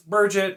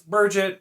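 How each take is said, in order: First: The name is said like Burgett. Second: The name is said like Burgett.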